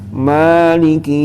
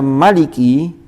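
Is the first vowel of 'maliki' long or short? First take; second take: long; short. First: The first vowel of maliki is drawn out long. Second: The first vowel of maliki is kept short. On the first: It matches the written text only by implication. "sesuai dengan rosem tapi ihtimal" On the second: It matches the written text exactly. "dibaca sesuai dengan rosem secara tahqiq"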